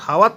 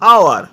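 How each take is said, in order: First: The word starts with an h sound. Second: The word starts with a vowel sound. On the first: The speaker calls it wrong. "হাওয়ার তো নয়" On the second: The speaker calls it right. "Silent ইস থাকলে"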